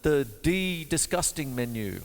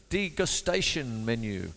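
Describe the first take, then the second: First: "de-disgusting" said as a deliberate joke version of degustation; joke mispronunciation. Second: Said in the usual way. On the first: Shown as a demonstration. Teacher jokingly mangling the menu name. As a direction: twist "de-disgusting" into a gag word.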